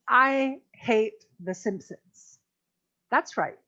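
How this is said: A clear pause comes before "that's right." The speaker calls it right. "When we emphasize something like that, you want to be sure to pause there"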